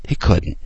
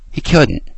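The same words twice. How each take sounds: First: He couldn't whispered, no voice; whispered repeat. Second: Said in the usual way. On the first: Real, not acted. Host repeating his point to listeners, whispered. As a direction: breathe He couldn't as an aside.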